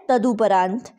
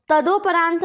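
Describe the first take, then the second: First: तदुपरांत said with an u sound after द, as tadu-; तदुपरांत spoken as tadu-paraant with a clear u; correct spelling read out. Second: तदोपरांत said with an o sound after द, as tado-; तदोपरांत spoken as tado-upraant, the incorrect form; wrong spelling read out. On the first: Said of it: "ये होता है". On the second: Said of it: "नहीं होता है". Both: Shown as a demonstration.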